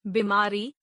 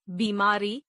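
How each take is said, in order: First: बीमारी with a short first "i"; mispronounced. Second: Said in the usual way. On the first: Shown as a demonstration. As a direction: say बीमारी as "bimaari". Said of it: "अशुद्ध". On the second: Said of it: "शुद्ध".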